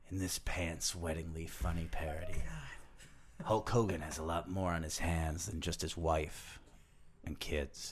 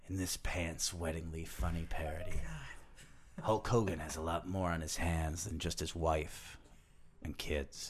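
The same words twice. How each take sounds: First: It is read dirtily, like a porn film. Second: The same.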